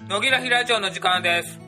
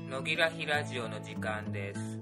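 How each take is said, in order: First: It is spoken loudly with a raised voice. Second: It is spoken quietly in a dark tone. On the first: "今の暗いトーンで声を張り上げて言ってみたいと思います。" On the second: "今の暗いトーン"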